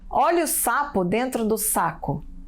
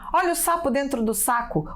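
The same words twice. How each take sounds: First: It is read slowly. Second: It is read quickly. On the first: "Primeiro vou ler devagar" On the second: "Agora eu vou ler rápido"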